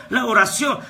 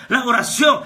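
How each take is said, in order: Both takes have the same delivery.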